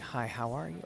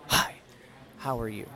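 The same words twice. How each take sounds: First: It is said plainly, without emphasis. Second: It is said with strong, surprised emphasis.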